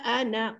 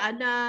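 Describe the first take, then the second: First: The final vowel is short, running into next word. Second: The final vowel is held long, two counts. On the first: The reciter continues without stopping. "kalau kita wasal" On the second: The reciter stops on this word. "kalau kita berhenti, kita ana dua harakat"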